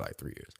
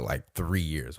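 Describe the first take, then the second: First: Whispered under the breath, much softer; hushed aside. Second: Said in the usual way. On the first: Shown as a demonstration. To himself, repeating how long they dated, whispered.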